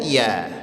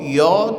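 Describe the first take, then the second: First: The ya is pronounced thin, sounding like ya. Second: The ya is pronounced thick, sounding like yo. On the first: The speaker calls it right. "Ya-nya tipis, senyumkan" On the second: The speaker calls it wrong. "Jangan dibaca yoh"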